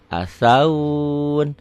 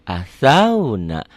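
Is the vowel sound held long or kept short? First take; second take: long; short. First: The word stops with a lengthened vowel. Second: The word flows on with a short vowel. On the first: The reading stops at this word. "Tapi kalau berhenti" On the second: The reading continues into the next letters. "Nggak ada yang panjang"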